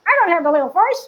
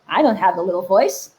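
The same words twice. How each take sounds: First: High, squeaky mocking echo; little voice. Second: Said in the usual way. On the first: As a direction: repeat it as the squeaky inner doubter. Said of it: "That is the little voice". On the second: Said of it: "some of you may be thinking".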